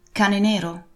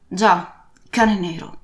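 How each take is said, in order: First: Put-on young Jim's questioning tone; a hint of the boy's query; boy asking. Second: Put-on old captain's gruff falling reply; lightly voiced old sailor's answer; captain confirming. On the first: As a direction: ask it uncertainly. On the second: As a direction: confirm it grimly.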